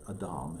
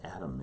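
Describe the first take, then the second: First: The name has a Hebrew pronunciation. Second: The name has an English pronunciation. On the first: "but Adam" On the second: "We call it Adam in, in, in our pronunciation"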